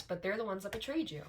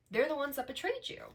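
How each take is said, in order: First: Said in the usual way. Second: Betrayed rises higher on the repeat; emphatic repeat. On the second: Real, not acted. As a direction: say betrayed again, higher and pointed.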